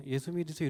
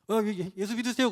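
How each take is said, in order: First: Softly mumbled invitation, no confidence; quiet, timid offer. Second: Acting out an assured evangelist; confident offer. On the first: Acted. Preacher showing how not to hand out tracts, quietly. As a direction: imitate a hesitant evangelist, low and soft. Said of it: "조용히 이렇게". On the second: Preacher imitating a church deacon handing out tracts, confidently. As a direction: say it up front, with confidence. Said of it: "이게 뭐냐면 자신감이에요".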